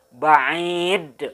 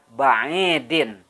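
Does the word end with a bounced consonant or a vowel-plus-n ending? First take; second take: bounced consonant; vowel-plus-n ending. First: The word stops on a strong, bouncing final 'd'. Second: The word ends with a full '-in' syllable. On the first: The reader stops on this word. "memberhentikan bacaan ba'idin menjadi ba'id, ... Jadi terdengar tegas" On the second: This is the word's full form without stopping. "asalnya ba'idin ya"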